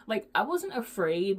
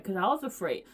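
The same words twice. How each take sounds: First: "wasn't" stressed, tune rising. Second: Said in the usual way. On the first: Real, not acted. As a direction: lean on "wasn't" and lift the end.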